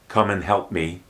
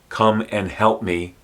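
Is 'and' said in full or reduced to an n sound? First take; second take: reduced; full. First: The word 'and' is reduced to an n. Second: The word 'and' is said in full.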